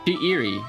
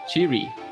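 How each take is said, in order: First: The name is said with three syllables. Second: The name is said with two syllables. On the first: The speaker calls it wrong. "it somehow was getting to be three syllables" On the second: The speaker calls it right. "Sorry, it's Chiri"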